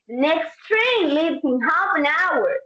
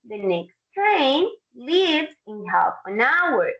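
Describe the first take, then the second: First: It is said urgently, with the pitch going up. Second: It is said in a calm, even voice. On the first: "in an urgent voice ... the tone goes up" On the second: "in a calm voice"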